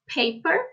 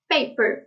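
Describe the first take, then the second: First: The first p has a puff of air. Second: The first p has no puff of air. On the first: "pronounced by a native speaker of English" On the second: "pronounced by a Brazilian L two learner of English"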